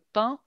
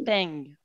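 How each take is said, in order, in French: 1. C'est prononcé avec une voyelle du français standard. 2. C'est prononcé avec une voyelle du français du Sud-Ouest. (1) "on ne va pas dire le pain" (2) "si on va dans le sud-ouest de la France, on va dire le peigne"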